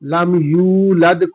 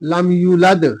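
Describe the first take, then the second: First: The vowel after 'y' is drawn out long. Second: The vowel after 'y' is cut short. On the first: The speaker calls it right. "वाव है जिससे आवाज लंबी होती है" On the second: The speaker calls it wrong. "अगर आवाज को मुख्तसर करेंगे तो हो जाएगा लम यूलद"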